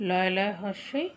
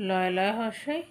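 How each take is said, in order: The two takes are said the same way.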